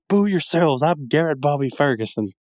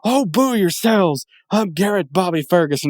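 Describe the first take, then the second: First: Higher, smug arcade champ voice; Billy Mitchell impression. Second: Villain voice. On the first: Imitating Billy Mitchell as GBF, higher smug voice. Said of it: "that right there is absolutely Billy Mitchell". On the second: Retold or imitated. GBF answering the booing crowd, hammed-up villain voice. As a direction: sneer it back like a giant-headed arcade villain. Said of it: "he turns around and he goes".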